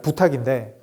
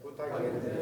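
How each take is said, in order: First: Said in the usual way. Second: 부탁인데 whispered softly with a falling end. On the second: Shown as a demonstration. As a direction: breathe 부탁인데 quietly. (부탁인데를 속삭이듯 내리며) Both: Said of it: "저 따라하세요".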